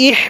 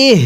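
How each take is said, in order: First: ইহ with a harsh, tight h; mistaken h. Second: ইহ with a light, lightly sounded h; correct round h. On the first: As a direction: make the h of ইহ a rasping throat sound. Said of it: "যেই ভুলটা করি". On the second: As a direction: let the h of ইহ breathe out gently. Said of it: "হালকা আওয়াজ করে পড়তে হবে". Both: Shown as a demonstration.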